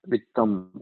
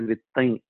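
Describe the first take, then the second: First: The final nasal is a full m sound. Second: The final nasal is a nasalized vowel. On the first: "it is like makara" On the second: "They will say vittain"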